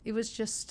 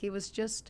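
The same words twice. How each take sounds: The two takes are said the same way.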